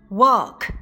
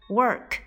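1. 发音时没有 r 音。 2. 发音时卷舌。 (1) "同样它们的英式发音" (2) "我都是使用的美式发音"

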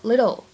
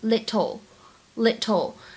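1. 这个 t 是轻柔的浊化闪音。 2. 这个 t 是清脆、清晰的 t 音。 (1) "美音浊化，所以呢在美式发音当中我们一般读作little" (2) "在英式发音当中我们可以读成little"

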